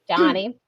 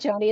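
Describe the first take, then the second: First: The first vowel sounds like the one in John. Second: The first vowel sounds like the one in Joe. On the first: The speaker calls it right. "She pronounces it Johnny" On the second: The speaker calls it wrong. "always said Joni"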